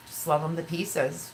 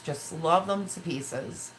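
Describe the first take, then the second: First: Said in the usual way. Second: Slowed-down, fond repeat; slow, tender. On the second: Real, not acted. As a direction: linger on it with love for the sons.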